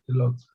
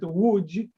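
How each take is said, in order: First: The name is said with plain international letter sounds. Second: The name is said with its native Polish sounds. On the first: "internationally it's pronounced just Lodz" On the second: "when we pronounce it Łódź, it means boat"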